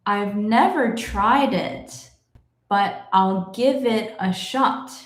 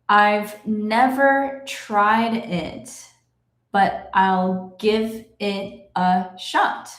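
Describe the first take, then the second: First: The sentence is read somewhat slowly. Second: The sentence is read very slowly. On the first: "but a little bit faster" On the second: "I will read it slowly"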